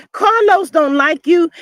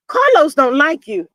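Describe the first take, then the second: First: Slower, chuckling "Carlos don't like you"; laughing repeat. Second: "Carlos" hit hard, plain falling delivery; stress on Carlos. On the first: Teasing Nell Fletcher again, slow laughing. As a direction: laugh it out slowly. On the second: Telling Nell Fletcher the truth, "Carlos" stressed. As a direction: punch "Carlos" and state it flat. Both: Shown as a demonstration.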